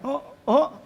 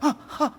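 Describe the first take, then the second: First: It sounds like a loud exclamation. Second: It sounds frightened and shocked.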